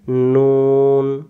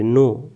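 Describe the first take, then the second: First: নুন held slowly with a full final n; teacher showing the right reading নুন; correct pronunciation. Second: নু said short, without the final n; teacher showing the wrong reading নু; wrong pronunciation. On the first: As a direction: stretch নুন out, closing on the n. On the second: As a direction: clip it to নু, the common mistake. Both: Shown as a demonstration. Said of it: "নু নয়".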